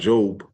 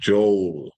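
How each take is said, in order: First: The name ends without an L sound. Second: The name ends with a clear L sound. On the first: The speaker calls it wrong. "I'm saying it like that" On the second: The speaker calls it right. "you gotta hit that L on the end"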